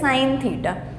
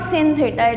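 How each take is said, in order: First: The first word rhymes with 'fine'. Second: The first word rhymes with 'fin'. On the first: The speaker calls it right. "it is sin theta" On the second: The speaker calls it wrong. "not sin theta"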